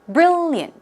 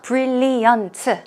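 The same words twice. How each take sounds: First: The word is said with two syllables. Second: The word is said with four syllables. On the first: The speaker calls it right. "it's two syllables" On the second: The speaker calls it wrong. "It's not brilliant, not four syllables"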